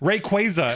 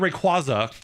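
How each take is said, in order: First: Both Ray and Quay carry strong stress. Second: Only one syllable carries strong stress. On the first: "how they pronounce it in the anime, but that's a problem because Ray and Quay are now both stressed" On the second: "That's why we all said Rayquaza up until we watched the anime"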